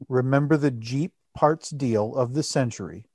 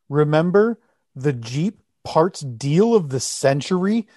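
First: It is read in a flat, low-energy way. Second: It is read with lively, emphatic energy. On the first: The speaker calls it wrong. "I didn't read that with the right emphasis" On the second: The speaker calls it right. "Give it a little gusto"

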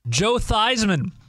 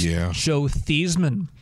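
First: The surname rhymes with Heisman. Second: The surname does not rhyme with Heisman. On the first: This is the changed, commonly used pronunciation. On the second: This is the original family pronunciation.

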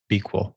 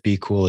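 First: The name sounds like equal with b before it. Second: The name sounds like the words be cool.

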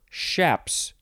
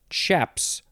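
First: The word begins with an 'sh' sound. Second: The word begins with a 'ch' sound. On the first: "or an SH" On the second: "You could pronounce the beginning with a CH"

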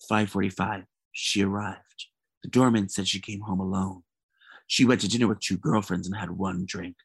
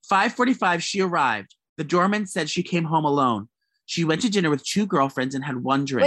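First: It is read in a spooky mystery voice. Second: It is read in a plain voice.

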